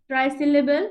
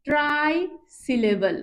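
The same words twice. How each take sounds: First: Said in the usual way. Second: "try" held apart, then "syllable" falling; term in pieces. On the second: Shown as a demonstration. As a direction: pause between "try" and "syllable". Teacher spells out new term. ("Try syllable" থেমে থেমে)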